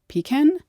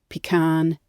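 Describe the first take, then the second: First: The stress is on the first syllable. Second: The stress is on the second syllable. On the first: This follows the English stress pattern. "English prefers first syllable stress" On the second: This follows the French stress pattern. "French likes to stress the second syllable"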